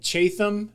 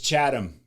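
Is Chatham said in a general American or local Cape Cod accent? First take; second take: general American; local Cape Cod. First: It is said in a general American accent. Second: It is said in a local Cape Cod accent. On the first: This is how an outsider says the name. The speaker calls it wrong. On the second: This is how the locals say the name. The speaker calls it right. "because everybody's got an accent there"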